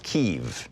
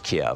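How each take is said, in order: First: The name is said the newer way. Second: The name is said the older way. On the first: This is how it is said now. "I guess it's Kyiv now" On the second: This is how it used to be said. "what used to be pronounced as Kiev"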